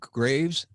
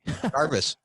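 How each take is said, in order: First: The surname sounds like Graves. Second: The surname sounds like Garvis. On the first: The speaker calls it wrong. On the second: The speaker calls it right.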